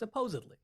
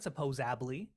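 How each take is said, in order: First: The middle of the word has a d sound. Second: The middle of the word has a b sound. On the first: The speaker calls it right. "real word is supposedly" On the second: The speaker calls it wrong. "It's not supposably"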